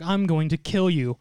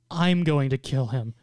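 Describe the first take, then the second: First: Said in the usual way. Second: I'm leaned on, slow and deliberate; stress on I'm. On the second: Retold or imitated. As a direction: claim it for yourself by stressing "I'm". Rival contests who gets to kill.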